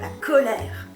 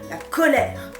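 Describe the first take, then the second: First: It is said cheerfully, with a smile. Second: It is said tensely, sounding angry. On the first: The speaker calls it wrong. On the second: The speaker calls it right.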